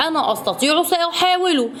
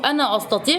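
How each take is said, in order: First: A lift of eager resolve, pitched higher; excited. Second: Said in the usual way. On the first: A narrator's reading. Adam, fired up, telling himself he can do it. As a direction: say it like a boy who just found his courage. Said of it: "تحمس آدم وقال لنفسه". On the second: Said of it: "قال لنفسه".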